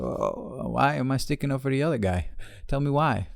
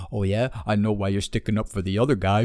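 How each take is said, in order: First: Higher-pitched mock innocent question; challenging comeback. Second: Mock knowing accusation; accusing retort. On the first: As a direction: play dumb and press for an answer. Retorting to the accuser. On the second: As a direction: imitate an insinuating challenger. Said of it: "this dude tried to fucking race bait me".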